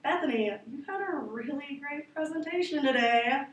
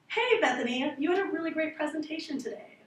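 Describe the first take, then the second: First: The praise sounds sarcastic and insincere. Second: The praise sounds warm and sincere.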